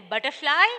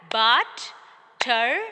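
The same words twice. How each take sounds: First: Said in the usual way. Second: "butterfly" as but... ter... fly, loud and slow; slow, separate beats on "butterfly"; syllable by syllable. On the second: Shown as a demonstration. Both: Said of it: "By clapping".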